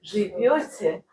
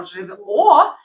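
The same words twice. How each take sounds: First: Slow Живёте with a softened, palatalized v; soft v. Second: Slow, loud живо with a hard v; mistaken hard v. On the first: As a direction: draw out Живёте, keeping the v soft before yo. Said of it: "But that's a soft one". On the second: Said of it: "if you say живо". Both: Shown as a demonstration.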